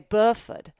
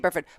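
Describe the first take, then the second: First: It is said in a Southern English accent. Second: It is said in an American accent.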